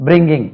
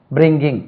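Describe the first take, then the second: No difference in how they are said.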